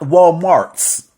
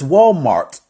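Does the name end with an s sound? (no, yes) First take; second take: yes; no. First: The name ends with an added s sound. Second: The name ends without any s sound. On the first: The speaker calls it wrong. "It's not Walmarts" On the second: The speaker calls it right. "It's Walmart"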